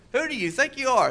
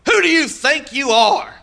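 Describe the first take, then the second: First: Mama's rebuke. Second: High, loud, slow scornful challenge; scornful taunt. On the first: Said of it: "my mama told me". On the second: A preacher mimics the scornful question thrown at believers, high and loud. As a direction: sneer it like a scornful relative. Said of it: "this is a good one". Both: Retold or imitated.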